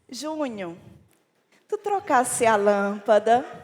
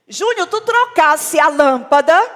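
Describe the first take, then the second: First: The question sounds warm and loving. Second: The question sounds harsh and unloving. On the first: The speaker is asking kindly. The speaker calls it right. "Com um tom de amor" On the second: The speaker is annoyed and reproaching. The speaker calls it wrong. "Aí olha essa abordagem"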